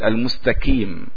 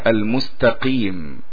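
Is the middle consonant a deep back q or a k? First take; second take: k; q. First: The middle consonant is a forward k sound. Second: The middle consonant is a deep back q sound. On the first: The speaker calls it wrong. "لا نقول المستكيم" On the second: The speaker calls it right. "إذا قرأنا المستقيم"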